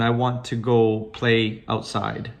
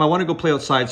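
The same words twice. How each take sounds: First: It is spoken slowly and hesitantly. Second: It is spoken quickly and fluently. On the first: The words come with effort and thinking. "she would say it slowly, like she was thinking" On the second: The thoughts connect straight to the words. "now there's no thinking involved"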